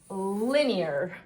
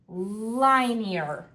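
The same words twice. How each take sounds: First: The first vowel is a short 'ih' sound. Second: The first vowel is a long 'eye' sound. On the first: The speaker calls it right. "I'll move the N to the first syllable and try the I sound" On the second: The speaker calls it wrong. "Let's separate the syllables between I and N"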